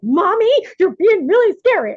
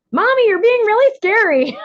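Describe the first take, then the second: First: Put-on high, loud kid complaint; squeaky little-kid whine; child's voice. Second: Put-on high, loud little-kid complaint; child's voice. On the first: Mother imitating her children's complaint, high and loud. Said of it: "And they're like". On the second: Mother quoting her children calling her scary, high and loud. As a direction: squeak it up like a small child. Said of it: "press the button on me and go".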